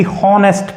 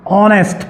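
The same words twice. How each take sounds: First: हॉनेस्ट with a clear breathy h at the start; wrong h sound. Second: ऑनेस्ट said with no h, opening straight on the vowel; silent h, correct. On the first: Teacher showing students the wrong way, हॉनेस्ट with h. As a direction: sound out हॉनेस्ट with the h, as the mistake to avoid. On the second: Teacher showing students the right way, ऑनेस्ट without h. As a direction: say ऑनेस्ट as "onest", the h left silent. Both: Shown as a demonstration. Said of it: "ना कि हॉनेस्ट पढ़ते हैं".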